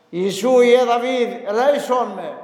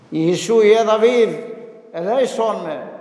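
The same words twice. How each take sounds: First: Higher, louder plea for mercy; louder retold cry. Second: Mild calling out to Jesus; half-voiced plea of the blind beggar; retold cry for mercy. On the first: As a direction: call out harder than the first time. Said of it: "φώναζε πιο δυνατά". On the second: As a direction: priest voicing the blind man's first call. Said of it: "έβαλε τις φωνές".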